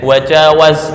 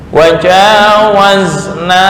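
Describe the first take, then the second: First: The final vowel is short. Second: The final vowel is long. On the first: The women passed over. The speaker calls it wrong. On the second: We passed over. The speaker calls it right.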